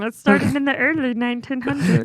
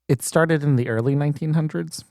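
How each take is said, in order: First: It is said in a Kermit the Frog voice. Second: It is said in the speaker's normal voice.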